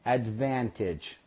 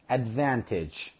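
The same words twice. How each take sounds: The two takes are said the same way.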